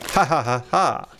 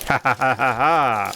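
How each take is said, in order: First: It is a nice, friendly laugh. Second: It is an evil villain's laugh.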